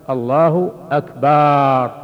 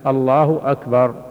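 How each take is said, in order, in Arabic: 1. الحركة التي بعد الباء في «أكبر» ممدودة. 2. لا تُمَدّ أي حركة فوق قدرها الطبيعي. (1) "لو مد الباء فقال" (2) "أن يأتي بها بهذا اللفظ الله أكبر"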